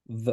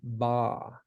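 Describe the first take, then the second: First: The conjunction is a bare v with no vowel. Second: The conjunction is said with an ah vowel. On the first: "There's no vowel associated with it. It's just a v" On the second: "You want to make sure to put that ah, the long kind of vowel on there"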